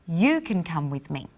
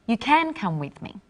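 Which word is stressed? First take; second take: You; can. First: The stress is on "you". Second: The stress is on "can".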